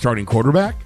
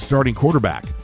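First: The voice rises at the end. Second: The voice falls at the end. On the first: It is asked as a question. The speaker calls it right. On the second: It is read as a statement. The speaker calls it wrong.

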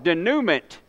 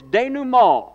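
First: It is said with a Southern American pronunciation. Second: It is said with a French-style pronunciation.

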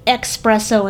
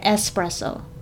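First: The first syllable is said with an x sound. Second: The first syllable is said with a plain s. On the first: The speaker calls it wrong. "Like espresso instead of espresso" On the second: The speaker calls it right. "instead of espresso"

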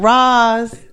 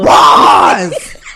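First: The name is said at normal loudness. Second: The name is screamed very loudly. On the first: It is just an ordinary call. The speaker calls it right. "I bet if you just be like, Ross, she'll hear you" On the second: Something alarming seems to be happening. The speaker calls it wrong. "you cannot scream Ross' name"

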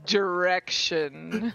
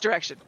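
First: The word is said slowly. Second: The word is said quickly. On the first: The speaker calls it right. "That's not how Nero talks. He says" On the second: The speaker calls it wrong. "Except I don't say it that fast"

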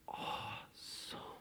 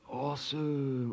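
First: It is said in a hushed, still way. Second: It is said in a casual skateboarder style.

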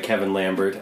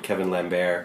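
First: The name is said in a plain English accent. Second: The name is said in a French accent.

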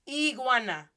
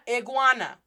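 First: The first vowel is a tense, clear 'ee' sound. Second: The first vowel is a short, lax 'ih' sound. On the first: The speaker calls it right. "Pero en español, there's no E" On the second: The speaker calls it wrong. "That short American English I"

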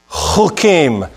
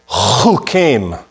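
First: The word begins with a throaty ch sound. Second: The word begins with a throaty ch sound.

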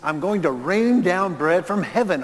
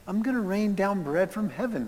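First: The tone is annoyed and exasperated. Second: The tone is gentle and comforting. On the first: The provision is given with irritation at complaining. "Or was it, "You whiny babies" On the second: The provision is given as kind reassurance. "Was it, "It's okay"

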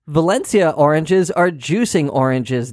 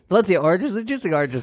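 First: It is said at normal speed. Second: It is said fast.

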